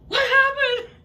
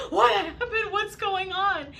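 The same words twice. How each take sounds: First: High, loud panicked yell; shouting across the water in fright; alarmed shout. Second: High, loud frantic questions; calling to a hurt friend in fright; panicked asking. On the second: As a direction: ask in a rising panic. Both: Retold or imitated. Friend surfaces screaming.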